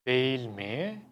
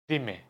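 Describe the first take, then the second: First: The phrase is said in full. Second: The phrase is said shortened. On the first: "you should say" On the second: "most people say"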